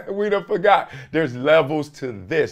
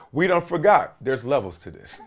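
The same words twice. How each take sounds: First: Amused, laughing as you repeat it. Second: Said in the usual way. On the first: Real, not acted. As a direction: say it through a chuckle. Laughs, then repeats the line.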